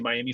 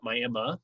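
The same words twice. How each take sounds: First: It is pronounced the way the Florida city is. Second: It is pronounced the local Oklahoma way instead. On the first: This is the familiar big-city name. "you see Miami, Florida" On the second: This is what the town's residents call it. "but we call it Miami"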